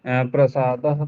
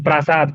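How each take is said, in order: First: प्रसादः with a short first a, prə-saa-dah; wrong short vowel. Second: प्रासाद with a long first aa, praa-saad; corrected long vowel. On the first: Student mispronounces प्रसादः, with a short first vowel. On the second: Student corrects himself after the teacher, saying प्रासाद with a long aa. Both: Real, not acted. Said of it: "ये भाई, प्रसाद मत बोलो".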